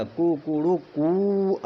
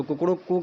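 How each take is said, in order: First: Slow rooster call with the last कू held long; rooster crow. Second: Said in the usual way. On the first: Shown as a demonstration. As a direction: stretch Kukru कू short, longer, then longest like a crowing rooster. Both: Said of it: "कुकड़ू कू ऐसे करके".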